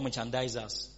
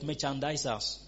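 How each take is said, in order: First: The consonant before the ending is a z sound. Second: The consonant before the ending is an s sound. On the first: "S or Z" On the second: "S or Z"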